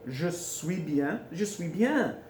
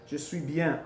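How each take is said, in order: First: "Je suis bien" slow and drawn out; stretched, careful "Je suis bien"; slow teaching demo. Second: Said in the usual way. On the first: Shown as a demonstration. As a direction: model "Je suis bien" slowly for learners. Teacher models phrase slowly.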